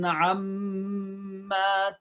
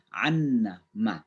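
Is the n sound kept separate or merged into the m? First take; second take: merged; separate. First: The n merges into a long nasal m. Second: The n is heard separately before the m. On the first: "kata amma" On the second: "asal usulnya itu dari ... karena ada nun ketemu dengan mim dari kata anna anna ma"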